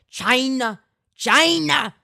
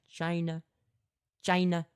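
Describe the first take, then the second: First: It is said with strong, exaggerated emphasis. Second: It is said plainly, like a regular person.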